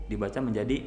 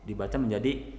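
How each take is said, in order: Both takes have the same delivery.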